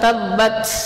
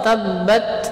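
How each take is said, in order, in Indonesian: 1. Huruf t terakhir punya hembusan napas yang kuat. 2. Huruf t terakhir punya hembusan napas yang lemah. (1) "Bukan tabbat" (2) "Yang benar insyaallah tabbat"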